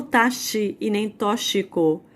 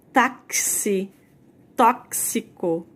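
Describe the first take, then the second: First: Taxi and tóxico with the X said as sh, taʃi, tɔʃiko; wrong pronunciation. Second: Táxi and tóxico with the X said as KS, taksi, tɔksiko; correct pronunciation. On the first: Teacher models the mistaken sh X in taxi and tóxico. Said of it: "Eu não falo". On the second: Teacher models the correct KS in táxi and tóxico. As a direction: say Táxi, tóxico slowly with a clear KS. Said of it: "ele tá fazendo um som de K S". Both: Shown as a demonstration.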